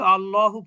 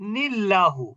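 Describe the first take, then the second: First: The word starts with an 'a' sound. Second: The word starts with a linked 'ni' sound. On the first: The reader stops before this word. "আলাদাভাবে পড়লে আল্লাহুই পড়তে হবে" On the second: The word is joined to the previous word. "এই দুইটা শব্দকে মিলিয়ে পড়তে চান"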